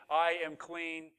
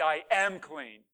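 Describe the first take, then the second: First: Said in the usual way. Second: "am" leaned on, louder and drawn out; slow, firm weight on "am"; stress on AM. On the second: Acted. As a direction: hit the word "am" with conviction. Claiming what God said.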